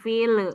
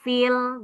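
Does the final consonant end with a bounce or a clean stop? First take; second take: bounce; clean stop. First: The final consonant ends with an echoing bounce. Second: The final consonant ends cleanly without a bounce. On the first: The speaker calls it wrong. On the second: The speaker calls it right.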